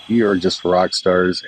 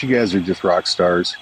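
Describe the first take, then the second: First: Drawn out, emphatic rock stars; slow down and really mean it; slower, leaning on each word. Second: Said in the usual way. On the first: Real, not acted.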